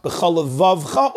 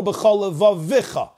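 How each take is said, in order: First: Levavcha with V straight into ch; no vowel after the second V of levavcha; silent shva in levavcha. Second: Levavicha with an extra vowel after V; moving shva in levavicha. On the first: Teacher offering two readings, silent shva in levavcha. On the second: Teacher offering two readings, voiced shva in levavicha. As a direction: sound the shva as a syllable in levavicha. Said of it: "an emphatically pronounced shva". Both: Shown as a demonstration.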